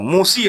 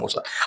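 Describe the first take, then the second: First: The word ends with an 'ee' vowel. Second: The word ends with an 'ah' vowel. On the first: The speaker calls it wrong. "अगर जो बच्चे नए नवेले आए हैं वो मूसी पढ़ेंगे" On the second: The speaker calls it right. "तो इसलिए मूसा पढ़ते हैं इसको"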